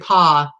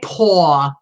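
First: The vowel is an open 'ah' sound. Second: The vowel is a rounded 'aw' sound. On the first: This is how the speaker says it. "I say paw" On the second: This is how the other person says it. "I don't say paw"

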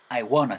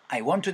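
First: Want to is reduced to wanna. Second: Want to is said in full. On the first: "I wanna 사운드로" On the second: "대신에"

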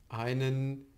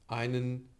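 No difference in how they are said.

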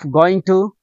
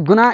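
First: It is said as two full words, going to. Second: It is said as one reduced word, gonna.

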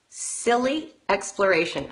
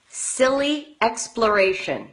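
No difference in how they are said.

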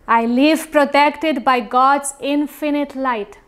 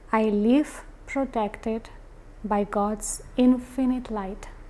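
First: It is spoken in a very loud voice. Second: It is spoken at a normal volume. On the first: "first with a very loud voice" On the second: "Now in a regular voice"

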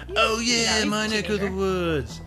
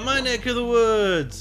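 First: It is said in a laid-back surfer-dude voice. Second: It is said in a plain, ordinary voice.

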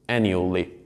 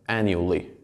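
First: The word is said with three syllables. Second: The same.

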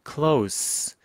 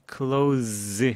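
First: The word ends with a hissing s sound. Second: The word ends with a buzzing z sound. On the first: It means near. "가까운이라는 형용사로 쓰일 때는 close 발음 나고요. ... 지금은 형용사이기 때문에 s입니다" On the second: It means to shut something. "뭔가를 닫다라고 할 때는 close 이렇게 합니다. close the door 할 때는 z"

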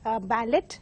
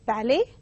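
First: A 't' sound is heard at the end of the word. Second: No 't' sound is heard at the end of the word. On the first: The speaker calls it wrong. "mispronounced by many as ballet. They include the T, but T is silent" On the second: The speaker calls it right. "the third word is ballet"

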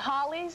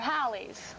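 First: The first vowel does not rhyme with pal. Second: The first vowel rhymes with pal.

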